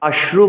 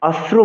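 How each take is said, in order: First: The consonant cluster uses an 'sh' sound. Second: The consonant cluster uses a plain 's' sound. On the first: The speaker calls it right. "অশ্রু বলতে হবে, শ্র বলতে হবে" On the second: The speaker calls it wrong. "আর অশ্রু বলা যাবে না"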